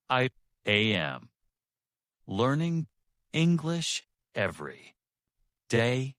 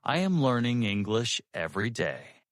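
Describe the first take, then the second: First: Word by word, long pauses, raised middle words; slow and heavy. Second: One connected, even conversational phrase; medium flow. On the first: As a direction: give each word weight and let silence sit between. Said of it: "slow and heavy". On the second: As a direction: let the sentence flow without breaks. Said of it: "medium flow". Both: Shown as a demonstration.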